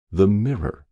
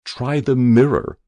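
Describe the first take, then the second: First: Said in the usual way. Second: Distant voice. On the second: A narrator's reading. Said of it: "said a distant, terrible voice".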